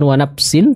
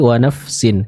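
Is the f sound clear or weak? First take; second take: weak; clear. First: The f sound is weak and unclear. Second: The f sound is clear with audible airflow. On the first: The speaker calls it wrong. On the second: The speaker calls it right. "Huruf fa ya terbaca dengan aliran suara yang jelas ketika dia sukun"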